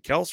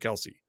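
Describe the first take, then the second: First: The name ends after the 's' sound. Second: The name ends with an added 'ee' sound. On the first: This is the traditional family pronunciation. "traditionally, historically, throughout their, you know, the lineage of that name, it's been kind of Kels" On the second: This is how most people say the name. "so many people call them Kelsey over there"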